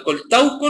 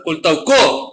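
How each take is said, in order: First: Said in the usual way. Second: Coltauco with the stress pushed onto the final CO; misplaced final accent. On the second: Shown as a demonstration. Teacher reads out the misspelt town, stressing the end of Coltauco. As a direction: stress the last syllable of Coltauco, col-tau-CO. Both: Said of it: "no es sin acento".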